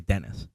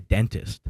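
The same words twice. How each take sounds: First: The middle T is dropped, sounding like Dennis. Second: The middle T sound is clearly pronounced. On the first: "like the name D E N N" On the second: "you don't say dentist"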